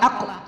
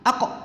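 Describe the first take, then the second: No difference in how they are said.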